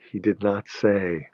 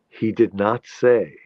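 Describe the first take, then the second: First: Slow, weight on the word did; he DID not say, drawn out; stress on DID. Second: Slow, weight on the word say; he did not SAY, drawn out; stress on SAY. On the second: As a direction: lean on say as the key word. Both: Shown as a demonstration.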